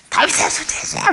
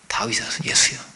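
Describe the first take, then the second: First: It is shouted loudly with force. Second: It is said quietly and calmly.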